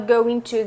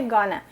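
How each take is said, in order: First: Both words are said fully and separately. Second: The words blur quickly into one reduced form. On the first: "Você fala going to" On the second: "going to muito rápido, isso vira gonna"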